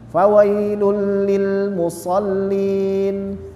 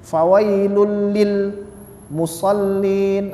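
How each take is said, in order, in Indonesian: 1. Frasa ini mengalir lancar tanpa henti sama sekali. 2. Frasa ini terpotong oleh henti di tengahnya. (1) "seperti air mengalir saja" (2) "tidak boleh berhenti"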